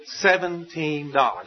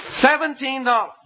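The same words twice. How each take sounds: First: Said in the usual way. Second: "Seventeen dollars" pitched high, falling away; incredulous repeat. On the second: Shown as a demonstration. Preacher marvels at debt owed by fellow servant, incredulous "Seventeen dollars". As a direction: exclaim "Seventeen dollars" at the paltry sum. Repeats the paltry sum in disbelief.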